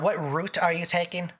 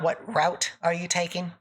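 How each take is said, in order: First: Route is said with a Canadian pronunciation. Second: Route is said with an American pronunciation. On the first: "If you say a boot or if you say uh, route"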